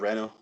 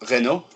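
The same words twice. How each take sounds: First: It is said with a Scottish pronunciation. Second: It is said with a French pronunciation. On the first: "we say a Renault" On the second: "That's how the French say it"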